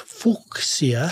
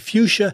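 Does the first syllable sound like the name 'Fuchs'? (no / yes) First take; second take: yes; no. First: The first syllable sounds like 'Fuchs'. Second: The first syllable does not sound like 'Fuchs'. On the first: This follows the family name the plant is named after. The speaker calls it right. "the right way to say it is fuchsia" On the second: This is how most people say it. The speaker calls it wrong. "I know most people say fuchsia"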